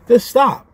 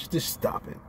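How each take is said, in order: First: High and loud, yelling "stop"; exasperated shout. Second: Voiceless pleading to stop it; exasperated whisper. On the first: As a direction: snap it out, fed up. Scolding a pundit, shouted take. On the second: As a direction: breathe it out, fed up. Scolding a pundit, whispered take. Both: Real, not acted.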